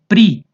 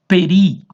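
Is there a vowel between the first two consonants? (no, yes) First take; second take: no; yes. First: The first two consonants form a cluster. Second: A short vowel separates the first two consonants. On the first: "Outros preferem pri" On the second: "Alguns pronunciam peri"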